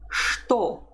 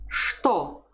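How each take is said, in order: First: The word begins with an sh sound. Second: The word begins with an sh sound.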